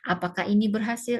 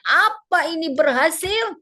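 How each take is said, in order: First: It is said in a calm, ordinary manner. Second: It is said in an exaggerated, overdone manner.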